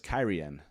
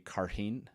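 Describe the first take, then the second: First: The first syllable sounds like kai. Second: The first syllable sounds like car. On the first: The speaker calls it right. "I didn't realize it was Kyrian" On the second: The speaker calls it wrong. "I always pronounced the city Carheen"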